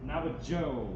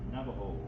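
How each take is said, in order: First: The consonant before the last vowel sounds like j. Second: The consonant before the last vowel sounds like h. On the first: The speaker calls it wrong. "people mispronounce it as Joe. Navajo, which is incorrect" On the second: The speaker calls it right. "We call ourselves Navajo"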